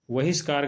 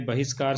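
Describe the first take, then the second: First: बहिष्कार said with a v sound, vahishkaar; बहिष्कार starting with v instead of b; the common wrong बहिष्कार; wrong pronunciation. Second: बहिष्कार said with a b sound, bahishkaar; बहिष्कार starting with a clear b; the correct बहिष्कार; correct pronunciation. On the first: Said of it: "गलत है". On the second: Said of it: "सही है". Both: Shown as a demonstration.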